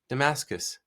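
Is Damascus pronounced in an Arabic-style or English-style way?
English-style. It is pronounced the plain English way. The speaker uses the ordinary local form. "you didn't say Damascus"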